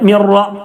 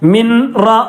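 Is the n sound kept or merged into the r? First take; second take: merged; kept. First: The n merges fully into the following r. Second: The n is pronounced separately before the r. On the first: The speaker calls it right. "നൂനിനെ റായിലേക്ക് കൂട്ടി യോജിപ്പിക്കുക" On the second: The speaker calls it wrong. "എന്ന് പറയരുത്"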